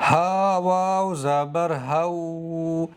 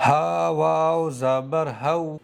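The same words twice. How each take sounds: First: واو in "ہو" drawn out long, the wrong way; deliberately wrong reading. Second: واو in "ہو" read short and quick; correct quick reading. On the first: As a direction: stretch the واو sound out on purpose. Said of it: "اس طرح سے واو کو نہیں کھینچنا ہے". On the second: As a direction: keep the واو in "ہو" short, no stretching. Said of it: "جلدی پڑھیں گے". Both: Shown as a demonstration.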